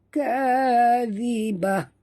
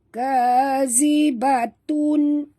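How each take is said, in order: First: The word ends with a soft h sound. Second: The word ends with a t and nasal ending. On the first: The reader stops at this word. "kita berhenti, yang keluar adalah huruf ha" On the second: The reader joins it to the next word. "kalau kita baca wasal sambung sini, ... bunyi ta ya"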